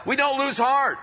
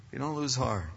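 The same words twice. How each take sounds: First: Preaching shout. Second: Dropped low and soft, almost to himself; soft echo. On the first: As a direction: proclaim it to the whole room. Preacher shouts the key line. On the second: Preacher repeating the line softly to the congregation, hushed. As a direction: let it settle quietly. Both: Real, not acted.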